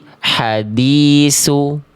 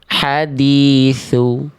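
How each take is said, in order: First: The key consonant sounds like s. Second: The key consonant sounds like th. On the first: The speaker calls it wrong. "Jangan dibaca" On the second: The speaker calls it right. "tapi dibaca"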